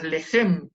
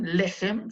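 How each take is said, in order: First: The stress is on the second syllable. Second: The stress is on the first syllable. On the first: The speaker calls it wrong. "No decimos lehem" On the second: The speaker calls it right. "se acentúa en la primera sílaba"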